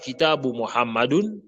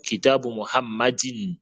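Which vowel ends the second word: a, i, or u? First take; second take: u; i. First: The second word ends in -un. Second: The second word ends in -in. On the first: The speaker calls it wrong. "on ne dit pas" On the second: The speaker calls it right. "mais on dit"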